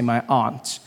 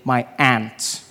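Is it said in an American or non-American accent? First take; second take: non-American; American. First: Aunt is said in the speaker's own non-American accent. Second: Aunt is said the American way, like ant.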